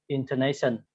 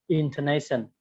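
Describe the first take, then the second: Both takes have the same delivery.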